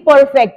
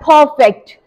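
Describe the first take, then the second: First: The first p is plain, without a puff. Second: The first p bursts out with a puff. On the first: The speaker calls it wrong. "वो नहीं कहते कि परफेक्ट" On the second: The speaker calls it right. "वो कहते हैं it's परफेक्ट"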